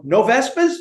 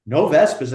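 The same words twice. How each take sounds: First: "no Vespas?" asked with a high rising tune on "Vespas"; "no Vespas?" as a pointed question. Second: "No Vespas." answered with a falling tune, stress on "No"; "No Vespas." as a plain relieved answer; flat confirmation. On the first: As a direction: end "no Vespas?" on a lifted question. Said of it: "So I said". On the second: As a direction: settle "No Vespas." down firmly. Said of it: "And he goes". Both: Retold or imitated.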